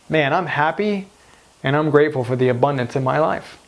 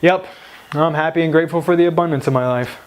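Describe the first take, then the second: First: It sounds heartfelt and convinced. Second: It sounds flat and unconvinced.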